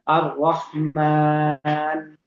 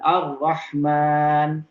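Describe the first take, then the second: First: The long vowel is held for four beats. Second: The long vowel is held for two beats. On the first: "Kalau dibaca empat" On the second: "disebut dengan uh, qasr"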